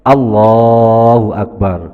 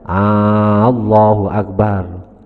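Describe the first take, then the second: First: The first vowel of Allah is kept short. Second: The first vowel of Allah is drawn out long. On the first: The speaker calls it right. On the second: The speaker calls it wrong.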